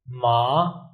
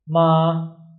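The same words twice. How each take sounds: First: The pitch rises from low to high. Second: The pitch stays level and high throughout. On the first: "a line from below to up" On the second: "your pitch, your voice is also straight"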